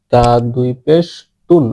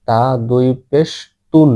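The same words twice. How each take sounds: The two takes are said the same way.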